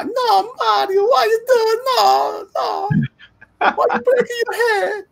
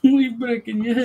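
First: Very high-pitched mock Italian wailing; fake Italian cartoon voice. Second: High-pitched mock Italian echo; copying the Italian voice. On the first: Shown as a demonstration. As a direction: squeal in distress like a cartoon plumber. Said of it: "and this is the voice". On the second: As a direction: lighter imitation of a cartoon Italian. Listener copies the cartoon voice.

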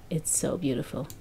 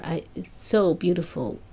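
First: Much softer and lower, half to herself; moved murmur after hearing the song. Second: Said in the usual way. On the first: Real, not acted. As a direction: let the praise fade almost to a breath. Repeating praise, then softening.

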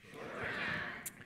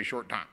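First: Whisper. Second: Said in the usual way. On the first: Shown as a demonstration. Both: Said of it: "Everybody say".

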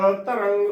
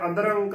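First: ਅਤਰੰਗ with a clear t, "a-tarang"; ਅਤਰੰਗ with first vowel set apart from tarang; correct pronunciation. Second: ਅਦਰੰਗ run together with a d sound; ਅਦਰੰਗ said as one joined word; mispronunciation. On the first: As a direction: keep the ਤ of ਅਤਰੰਗ a crisp t. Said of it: "ਉਚਾਰਨ ਕਰਨਾ ਹੈ". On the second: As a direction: soften the t to d in ਅਦਰੰਗ. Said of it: "ਗਲਤ ਉਚਾਰਨ ਹੋਵੇਗਾ". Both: Shown as a demonstration.

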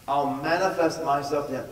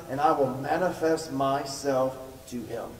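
First: Said in the usual way. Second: "and I will manifest myself to him" said slowly, each word weighed; emphasized slowly. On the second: Shown as a demonstration. Pastor underlining the promise for the congregation, slow emphasis. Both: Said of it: "and underline it".

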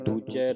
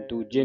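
First: Slow ਦੂਜੇ with an open "ai" ending; open final vowel. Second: ਦੂਜੇ ending in a closed "e"; wrong closed ending. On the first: Teacher gives the correct reading, ਦੂਜੇ ending in open "ai". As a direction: draw out ਦੂਜੇ as "doojai". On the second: Teacher shows the congregation the misreading, ਦੂਜੇ with closed "e". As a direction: say ਦੂਜੇ as "dooje". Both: Shown as a demonstration. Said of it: "ਦੂਜੇ ਨਹੀਂ ਪੜ੍ਹਨਾ".

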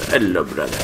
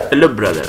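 First: Lower, softer "Hello, brother"; low mock greeting. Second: Said in the usual way. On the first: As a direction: drop into a deep hushed "Hello, brother".

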